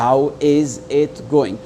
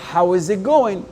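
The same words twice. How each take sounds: First: Each word is said separately and fully. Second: The words run together with it nearly dropped. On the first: The speaker calls it wrong. "quelqu'un qui va couper les mots comme ça" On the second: The speaker calls it right. "le it, là, je l'ai presque effacé"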